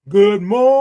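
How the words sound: It is said in a low, deep voice.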